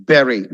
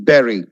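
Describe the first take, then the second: The two takes are said the same way.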